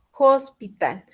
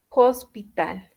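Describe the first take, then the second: First: Said in the usual way. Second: "hospital" said slowly, with the H as J; careful "hospital" for students; slow careful model. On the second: Shown as a demonstration. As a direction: stretch out "hospital".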